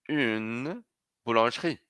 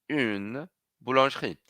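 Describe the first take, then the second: Both takes have the same delivery.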